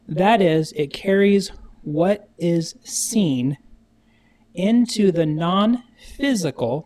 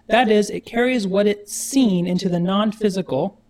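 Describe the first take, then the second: First: It is said slowly and deliberately. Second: It is said at normal speed.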